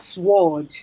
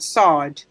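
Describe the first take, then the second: First: The word is said with a w sound. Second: The word is said without a w sound. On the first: The speaker calls it wrong. "not sword" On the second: The speaker calls it right. "but sword"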